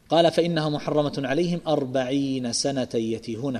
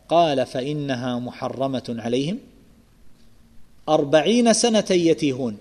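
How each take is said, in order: First: عليهم runs on into the number without pausing. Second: There is a pause right after عليهم. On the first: The forty years are the length of the prohibition. "فإذا وصلت" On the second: The forty years are the length of the wandering. "والوقف على قوله عليهم"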